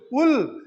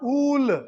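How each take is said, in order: First: "wool" with a short, quick oo. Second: "wool" with a long, drawn-out oo; over-long OO. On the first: Teacher showing the correct short sound, short oo in "wool". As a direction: keep the vowel in "wool" brief. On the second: Teacher showing how not to say it, long oo in "wool". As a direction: stretch the vowel in "wool" right out, falling. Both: Shown as a demonstration. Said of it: "not wool".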